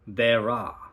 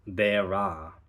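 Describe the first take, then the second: First: An R sound links the two words smoothly. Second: The same.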